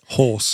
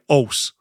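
First: The word begins with a clear H sound. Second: The word begins without any H sound. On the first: The speaker calls it right. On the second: The speaker calls it wrong.

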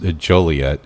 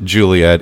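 First: The first syllable sounds like 'joe'. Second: The first syllable sounds like 'joo'. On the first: The speaker calls it right. "It is pronounced Joliet" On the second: The speaker calls it wrong. "you don't pronounce it Juliet"

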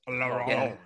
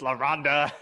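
First: It is said with a French rolled r. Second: It is said with an American ending vowel. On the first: The speaker calls it right. "you have to say like a rumble in your voice" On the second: The speaker calls it wrong. "my American ass"

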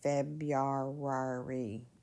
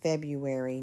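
First: The first R sound is pronounced. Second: The first R sound is dropped. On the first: The speaker calls it wrong. "not February" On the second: The speaker calls it right. "that first R, we don't usually pronounce that. It's just February"

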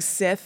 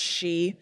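First: The word sounds like 'sith', ending in a 'th'. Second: The word sounds like 'she', with no final consonant. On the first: The speaker calls it wrong. "I kept just saying Sith" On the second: The speaker calls it right. "it's really pronounced she"

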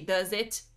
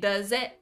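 First: The final T is clearly released. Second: The final T is a glottal stop. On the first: The speaker calls it wrong. "we don't usually say T" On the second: The speaker calls it right. "It's the glottal T"

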